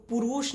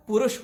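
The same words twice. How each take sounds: First: पुरुष said the wrong way, with a long ऊ; a mistaken पुरुष with a stretched vowel; wrong pronunciation. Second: पुरुष with short उ vowels; the right पुरुष, short and crisp; correct pronunciation. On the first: Teacher demonstrating the wrong पुरुष to students. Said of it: "नहीं होता है". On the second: Teacher demonstrating the correct पुरुष to students. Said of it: "वो पुरुष होता है". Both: Shown as a demonstration.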